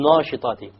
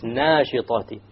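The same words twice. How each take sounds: First: The long vowel after n sounds heavy and dark. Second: The long vowel after n sounds light and thin. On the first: The speaker calls it wrong. "which is a mistake" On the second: The speaker calls it right. "It's nashitati"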